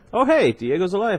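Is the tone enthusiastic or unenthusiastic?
enthusiastic. It is said with enthusiasm.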